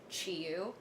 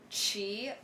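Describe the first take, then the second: First: The name has an English-style pronunciation. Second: The name has its original Chinese pronunciation. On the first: "the common English way that people pronounce it" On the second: "My legal name is pronounced uh"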